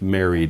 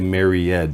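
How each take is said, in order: First: The ending is said as a plain D sound. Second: The ending is said as an extra syllable. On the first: The speaker calls it right. "It's just a D sound" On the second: The speaker calls it wrong. "Some students will say married and add a syllable"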